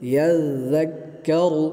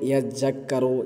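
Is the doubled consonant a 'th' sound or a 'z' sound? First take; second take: th; z. First: The doubled consonant sounds like 'th' in 'this'. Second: The doubled consonant sounds like 'z' or 'j'. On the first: The speaker calls it right. "সঠিকভাবে উচ্চারণ করবেন" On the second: The speaker calls it wrong. "কেউ বলে ইয়াজ্জাক্কারু, ইয়াজ্জাক্কারু, এমনটি না হয়ে যায়"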